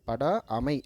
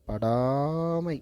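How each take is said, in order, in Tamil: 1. சொல் இரண்டு தனிப் பகுதிகளாகப் பிரிந்து ஒலிக்கப்படுகிறது. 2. சொல் ஒன்றாக இணைந்த ஒரே அலகாக ஒலிக்கப்படுகிறது. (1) "அப்படி படிக்கக்கூடாது" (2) "அப்படி படிக்கணும்"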